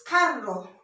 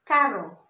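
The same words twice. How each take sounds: First: "carro" with a rolled double R; double-R pronunciation. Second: "caro" with one light tapped R; single-R pronunciation. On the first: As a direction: roll the R firmly in "carro". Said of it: "it's like the ra sound". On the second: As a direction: say "caro" with a quick single R flick. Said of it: "this is pronounced". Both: Shown as a demonstration.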